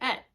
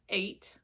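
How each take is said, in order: First: It is said in the other group's accent. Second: It is said in the speaker's own accent.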